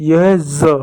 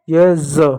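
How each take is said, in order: Both takes have the same delivery.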